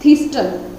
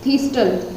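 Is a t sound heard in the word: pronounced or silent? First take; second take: pronounced; pronounced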